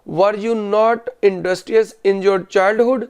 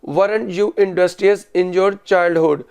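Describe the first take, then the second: First: Were and not are said as separate full words. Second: Were not is contracted into one word. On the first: This is the written style. "ये written English में।" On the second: This is the spoken style. "वर नॉट को contraction में कर दिया।"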